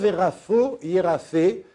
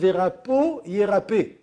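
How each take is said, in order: First: The middle consonants are soft f sounds. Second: The middle consonants are hard p sounds. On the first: The speaker calls it wrong. "on ne dit pas verafo yérafé" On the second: The speaker calls it right. "on dit verapo yérapé"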